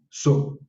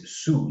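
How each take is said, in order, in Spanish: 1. La vocal es la u al estilo quechua. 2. La vocal es la u al estilo español. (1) "Entonces es su, u, u" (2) "no es su"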